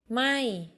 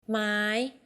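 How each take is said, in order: First: The syllable is said on a falling tone. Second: The syllable is said on a high tone. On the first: It means not or burning. "falling ไหม้ not or burning" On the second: It means wood. "high ไม้ wood"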